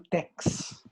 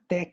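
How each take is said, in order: First: The word ends in a ks sound. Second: The word ends in a plain k sound. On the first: The speaker calls it wrong. "e não tex" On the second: The speaker calls it right. "a gente pronuncia tech"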